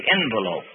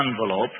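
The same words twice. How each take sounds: First: "envelope" starting with an "en" sound; first syllable of "envelope" rhymes with "pen"; EN-velope pronunciation. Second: "envelope" starting with an "on" sound; first syllable of "envelope" rhymes with "on"; AHN-velope pronunciation. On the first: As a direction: say "envelope" as EN-vuh-lope. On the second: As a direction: say "envelope" as AHN-vuh-lope. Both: Shown as a demonstration. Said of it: "is God gonna say envelope or envelope".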